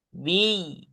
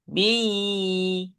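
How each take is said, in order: First: The vowel is kept short. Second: The vowel is held long. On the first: The speaker calls it right. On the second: The speaker calls it wrong. "jangan bi"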